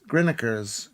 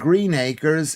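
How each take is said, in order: First: It is run together as one quick word. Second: It is said as two separate clear words. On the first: This is how the locals say it. "is Grinnikers" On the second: This is how the name is written. "Green Acres in Oldham"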